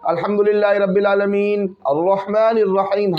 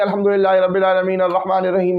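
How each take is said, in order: First: It pauses at the end of each verse. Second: The verses run together without pausing. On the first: This follows the Prophet's way of reciting. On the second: The imam gives in to complaints about slowness.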